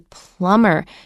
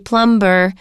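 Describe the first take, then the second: First: No B sound is heard in the word. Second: A B sound is heard in the word. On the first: The speaker calls it right. "We say plumber" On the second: The speaker calls it wrong. "There's a B in the spelling, but we do not say plumber"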